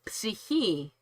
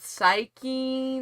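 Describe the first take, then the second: First: The word starts with a sounded P before S. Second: The word starts with an S sound, P silent. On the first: "the Greek for that would be psyche, which is a totally different sound. We actually pronounce the P" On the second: "thank you for confirming"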